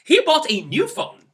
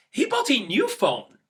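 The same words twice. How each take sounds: First: High, loud, thrilled; thrilled for your friend; excited for a friend's new phone. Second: Slow, bright happy read; pleased for your friend; happy news read slowly. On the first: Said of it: "you are excited for him or her". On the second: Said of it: "in a happy tone". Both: Shown as a demonstration.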